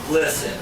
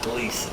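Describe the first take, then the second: First: The first vowel is short, as in 'listen'. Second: The first vowel is long, as in 'see'. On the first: The speaker calls it right. "It is Glisten" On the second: The speaker calls it wrong. "not Gleason"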